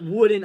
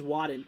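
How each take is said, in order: First: The first vowel sounds like in 'wood'. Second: The first vowel sounds like in 'wad'. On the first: The speaker calls it wrong. "It's not Wooden" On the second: The speaker calls it right. "I think it's Wadden"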